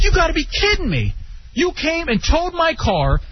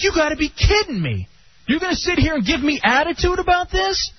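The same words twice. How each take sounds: First: Outraged shout. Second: Higher, half-outraged disbelief; lightly imitated indignation; incredulous retort. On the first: Retold or imitated. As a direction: shout it, fed up. Retelling the outrage again. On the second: Arguing with the tow clerk.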